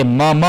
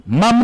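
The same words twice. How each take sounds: First: Two open syllables in मम, "ma-ma"; final vowel sounded. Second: Higher-pitched "mam" for मम, one syllable; final vowel dropped. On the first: Teacher reading what is written, मम with its final a sounded. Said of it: "जहां हलंत नहीं है वहां अ बोलेंगे". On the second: Teacher showing what not to say, मम cut to "mam". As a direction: say मम as "mam", closed on the m. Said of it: "मम नहीं बोलेंगे इसको". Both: Shown as a demonstration.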